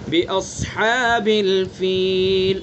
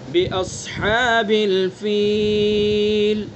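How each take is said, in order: First: The final long vowel is held one count. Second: The final long vowel is held two counts. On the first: "अगर एक अलिफ खींचना चाहें" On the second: "दो अलिफ"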